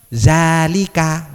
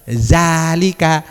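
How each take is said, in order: The two takes are said the same way.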